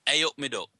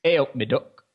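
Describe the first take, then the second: First: Nottingham accent demo, "A up me duck". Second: Repeating "A up me duck" in Nottingham accent. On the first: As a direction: teach it in broad Nottingham accent. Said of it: "say, this is a Nottingham accent". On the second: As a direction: copy the Nottingham greeting back. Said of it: "Say this after me". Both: Shown as a demonstration.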